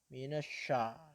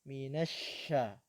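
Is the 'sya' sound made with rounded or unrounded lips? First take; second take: rounded; unrounded. First: The 'sya' is said with rounded, pushed-out lips. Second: The 'sya' is said with relaxed lips, much airflow. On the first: The speaker calls it wrong. "Minasya terjadi apabila mulut Bapak Ibu agak dimonyongkan" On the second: The speaker calls it right. "bibirnya tidak dimonyongkan, akan tetapi biasa saja"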